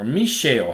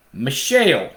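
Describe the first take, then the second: First: Mishael with a long "ee", like "MEE-shale"; long first vowel. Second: Mishael with a short, unstressed "Mi", like "mih-SHALE"; short first vowel. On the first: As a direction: say Mishael starting on a clear "mee". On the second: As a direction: say Mishael with a quick "mih" at the start. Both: Shown as a demonstration. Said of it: "however you want to say it".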